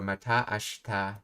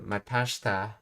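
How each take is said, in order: First: The vowel before shita is kept. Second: The vowel before shita is dropped.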